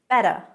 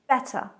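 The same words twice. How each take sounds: First: The middle T sounds soft, like a D. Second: The middle T is a clearly pronounced T. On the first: "in American English, ... more of a D sound really" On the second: "But British English, ... We pronounce the T"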